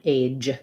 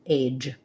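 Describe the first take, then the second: No difference in how they are said.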